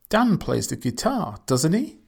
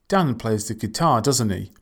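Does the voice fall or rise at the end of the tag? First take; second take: rises; falls. First: The voice rises at the end of the tag. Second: The voice falls at the end of the tag. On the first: The speaker really does not know. "Rising intonation" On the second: The speaker already knows and is just checking. "So falling intonation"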